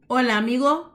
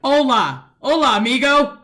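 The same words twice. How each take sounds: First: Hola, amigo, with a closed O. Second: Hola, amigo, much louder with a wide open O. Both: Shown as a demonstration. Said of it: "Hay una diferencia".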